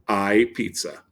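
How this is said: It is said as a statement, falling at the end.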